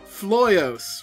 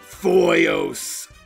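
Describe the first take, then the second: First: The name is said with an L sound. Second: The name is said without an L sound. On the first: The speaker calls it right. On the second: The speaker calls it wrong.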